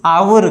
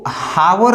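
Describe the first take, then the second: First: The word begins directly with a vowel. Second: The word begins with an h sound. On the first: The speaker calls it right. "आवर कहते हैं" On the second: The speaker calls it wrong. "कभी भी जो है इसको हावर उच्चारण नहीं किए हैं"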